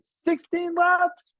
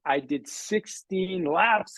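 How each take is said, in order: First: Much higher, slow, triumphant; proud cry of sixteen laps to the audience; excited exclamation. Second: Said in the usual way. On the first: Real, not acted. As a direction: shout it out with pride.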